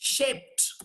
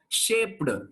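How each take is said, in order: First: The ending is a voiceless t sound. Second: The ending is a voiced d sound. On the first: The speaker calls it right. "This is how you have to pronounce" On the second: The speaker calls it wrong. "You should not pronounce"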